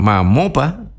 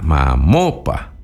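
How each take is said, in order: First: Mamopa with the stress on the O, rising at the end. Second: Mamopa slow and low, the O stressed. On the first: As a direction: mamopa with a higher, rising pitch. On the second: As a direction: draw out Mamopa, leaning on the O. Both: Shown as a demonstration. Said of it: "acento en la O y no en la A".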